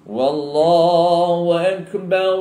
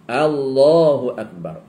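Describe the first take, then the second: First: The phrase begins with an added w sound. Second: The phrase begins directly with an a vowel. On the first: It sounds like an oath rather than a declaration of God's greatness. The speaker calls it wrong. "Wa ditambah, tak boleh" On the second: It is the proper declaration of God's greatness. The speaker calls it right. "A dia kena tambah"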